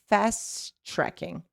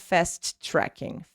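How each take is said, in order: First: The two T sounds merge into one. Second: Two separate T sounds are pronounced. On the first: The speaker calls it right. "One T, you are connecting these two sounds together" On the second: The speaker calls it wrong. "not fast tracking"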